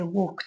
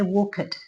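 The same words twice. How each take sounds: First: The ending sounds like a T. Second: The ending sounds like a D. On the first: The speaker calls it right. "I say walked. It sounds like a T" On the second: The speaker calls it wrong. "I don't say walked"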